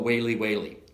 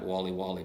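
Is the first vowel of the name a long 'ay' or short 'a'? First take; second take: long; short. First: The first vowel is a long 'ay' sound. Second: The first vowel is a short 'a' sound. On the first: The speaker calls it right. "apparently it's Whaley" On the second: The speaker calls it wrong. "I've been calling it Wally Wally"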